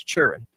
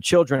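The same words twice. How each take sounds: First: Put-on "children" slurred into "churren"; Mississippi pronunciation. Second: Said in the usual way. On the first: Shown as a demonstration. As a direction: drop the L and D in "children". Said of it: "it's children". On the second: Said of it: "instead of children".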